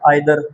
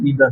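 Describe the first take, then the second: First: The first vowel sounds like 'eye'. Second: The first vowel sounds like 'ee'. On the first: The speaker calls it wrong. "बस लोग बोलते हैं" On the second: The speaker calls it right. "Americans बोलते हैं नीदर और ईदर"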